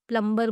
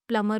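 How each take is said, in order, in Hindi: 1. b की ध्वनि उच्चारित होती है। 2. b की ध्वनि साइलेंट होती है। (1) "प्लम्बर बोलते हैं" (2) "बी साइलेंट होता है, प्लमर होता है"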